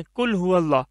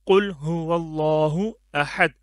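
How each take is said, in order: First: कुल said with a thin light क from mid-tongue; a light कुल हुवल्लाह, no heaviness; a mistaken thin कुल; thin kaf, wrong. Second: Slow careful recitation, heavy कुल; heavy qaf recitation. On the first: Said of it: "पतले काफ के साथ". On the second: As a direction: recite कुल हुवल्लाहु अहद with a thick क़. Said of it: "कुल में कौफ मोटा है". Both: Shown as a demonstration.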